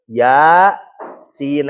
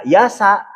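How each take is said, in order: First: "Ya" drawn out, pause, then "sin"; separated letter names. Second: "yasa" run together as one word; wrong joined reading. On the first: Teacher showing muqoto'ah reading, "Ya, sin" cut apart and elongated. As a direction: recite "Ya" and "sin" as two separate long letters. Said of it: "itu dibacanya terputus". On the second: Teacher warning students off the joined reading, "yasa" as one word. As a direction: say "yasa" short and joined, no letter break. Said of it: "jangan dibaca yasa". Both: Shown as a demonstration.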